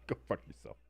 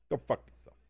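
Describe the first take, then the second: First: Breathy whispered go fuck yourself; whispered teasing insult to a chatter. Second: Odd put-on voice, go fuck yourself; silly voiced insult to a chatter. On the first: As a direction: whisper it like a playful jab. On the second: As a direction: say it in a silly other voice. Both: Real, not acted.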